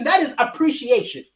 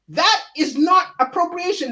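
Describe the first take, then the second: First: "That is appreciation" landing firm on appreciation; stress on appreciation. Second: "that is not appropriation" with NOT leaned on; stress on not. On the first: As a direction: hit appreciation as the correction. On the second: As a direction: press hard on not. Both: Shown as a demonstration. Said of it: "appropriation vs appreciation".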